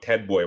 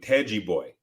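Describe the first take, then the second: First: The name is said with an American English accent. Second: The name is said with a Brazilian Portuguese accent. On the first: "speaking about him with an English accent or an American accent" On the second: "the Brazilians would call him Teji Boy"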